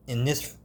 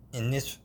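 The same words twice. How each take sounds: The two takes are said the same way.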